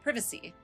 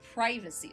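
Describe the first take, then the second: First: The first syllable sounds like 'priv'. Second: The first syllable sounds like 'pry'. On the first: "whereas British English it's privacy" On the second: "most Americans tend to pronounce privacy as privacy, so pry"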